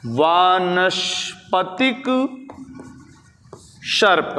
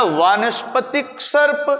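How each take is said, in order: First: Syllables drawn out, long pause between words; slow dictation. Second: Said in the usual way. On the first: Shown as a demonstration. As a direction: stretch each word out for note-takers. Dictates key term slowly. (खींच-खींच कर, धीरे-धीरे लिखवाते हुए)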